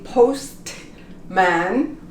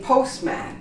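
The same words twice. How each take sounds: First: The T is sounded. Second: The T is silent. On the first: The speaker calls it wrong. "We don't say postman" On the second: The speaker calls it right. "we say postman"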